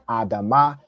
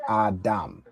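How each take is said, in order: First: The word ends with an extra vowel sound. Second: The word ends on the consonant m. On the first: The speaker calls it wrong. "instead of saying adama" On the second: The speaker calls it right. "the ah sound drops off from the last letter"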